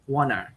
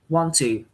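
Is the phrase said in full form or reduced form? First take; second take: reduced; full. First: The words are shortened and run together. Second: Both words are said fully and separately. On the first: "they pronounce wanna" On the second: "some word like want to"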